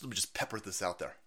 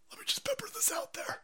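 First: Said in the usual way. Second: High, breathy whispered repeat. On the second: Pretend. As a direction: whisper it like a secret.

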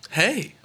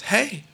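First: Sharper hey. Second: Higher, insistent hey; pointed warning hey. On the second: Clerk warning the customer rubbing the bottle, pointed hey. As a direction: warn him off with one word. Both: Retold or imitated. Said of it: "Just in a different tone".

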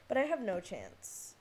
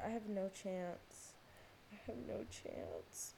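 First: Said in the usual way. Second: Slow, softer, defeated; sighing it to yourself; resigned repeat. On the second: Real, not acted. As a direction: let it sink in, softer and slower. Repeated, slower and quieter.

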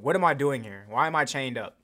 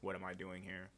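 First: Louder, pushed question with a hard fall; demanding question. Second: Much softer, almost under the breath; quiet question. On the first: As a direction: insist on an answer. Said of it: "demanding repeat". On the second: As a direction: ask it hushed and unsure. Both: Acted.

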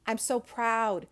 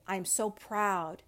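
First: Proud, a bit louder. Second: Proud, soft. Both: Real, not acted.

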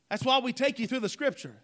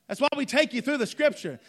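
No difference in how they are said.

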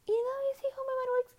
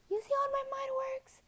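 First: Very high, fast and louder silly voice; squeaky cartoon voice. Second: Very high, breathless little whisper; a tiny squeaked secret; squeaky whisper. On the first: Repeating the question to viewers in a fast, very high, loud silly voice. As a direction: rattle it off like a chipmunk. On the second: Pretend. Telling viewers how her mind works, in a very high whisper.

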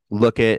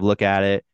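First: "Look it" with the "at" dropped, run together; New England "look it". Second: Said in the usual way. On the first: Shown as a demonstration. New Hampshire local showing how they say "Look it". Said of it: "Like, we say". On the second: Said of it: "instead of".

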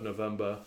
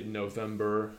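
First: November ending in -buh, no final r; British pronunciation. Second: November ending in an r-coloured -ber; non-British slip. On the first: Speaker showing the version they aim for, November without the r. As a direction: say November the British way, dropping the last r. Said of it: "use the words in a British accent". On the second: Speaker showing their everyday slip, November with a sounded r. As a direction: say November the American way, final r sounded. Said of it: "I would say November instead of November". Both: Shown as a demonstration.

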